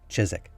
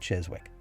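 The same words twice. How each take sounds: First: The middle w sound is silent. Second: The middle w sound is pronounced. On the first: "nobody in England pronounces it that way" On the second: "if it was up to me, I'd probably say Chiswick"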